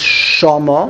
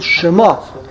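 First: The stress is on the first syllable. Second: The stress is on the last syllable. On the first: It means there. "it's Mila El" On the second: It means her name. "On the last syllable"

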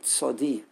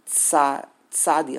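First: The first vowel is not an open 'a' sound. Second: The first vowel is an open 'a' sound. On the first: This is the form the old commentary marks. "But here it's a tzadi" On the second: This is the form the speaker always assumed. "I always thought it was tzadi, a patach"

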